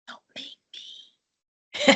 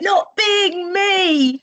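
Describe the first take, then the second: First: It is said at normal, quieter volume. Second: It is said more loudly.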